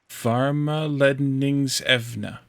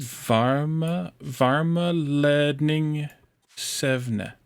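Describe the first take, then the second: First: Slow "Varma Ledningsevna" as one word, falling at the end; S moved to the second syllable. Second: Very slow "Varma Ledning Sevna" with a longer E; whole word, longer E. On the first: Fixing where the S goes for the tutor, slow. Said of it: "The S is at the end of the second syllable". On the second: Tutor asks for the entire word, slow careful attempt. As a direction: say the whole word slowly with a long E. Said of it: "try the entire word with that longer E". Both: Shown as a demonstration.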